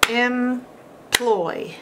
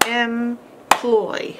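First: Employ, with a long ee at the start; wrong E sound. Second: Employ. with a short eh at the start; short E sound. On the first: Teacher demos the wrong vowel in Employ,. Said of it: "How do we know E makes the E sound". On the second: Teacher demos the right short vowel in employ. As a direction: open employ. on a clear short eh. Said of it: "not the E sound". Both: Shown as a demonstration.

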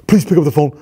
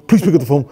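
No difference in how they are said.

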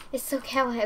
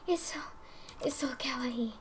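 First: Said in the usual way. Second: Breathy whispered gush; soft whispered adoration; awed whisper. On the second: Real, not acted. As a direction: hush it like it's too cute to say aloud. Overwhelmed by cute item.

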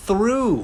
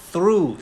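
First: Through pitched high, with a clear "oo". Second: Through said slowly with a long "oo". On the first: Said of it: "ต่อด้วยนะครับ". (คำว่า through เสียงสูง ออกเสียงอู) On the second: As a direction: draw out the "oo" in through. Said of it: "through เสียงอูนะครับ". (through ช้าๆ ลากเสียงอู) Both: Shown as a demonstration.

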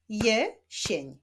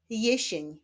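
First: "jesień" split as je... sień; syllable by syllable. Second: Said in the usual way. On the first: Shown as a demonstration. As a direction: clap out "jesień" in two separate beats. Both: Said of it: "Wyklaszczmy sylaby w tych wyrazach".

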